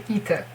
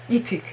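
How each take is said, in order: Both takes have the same delivery.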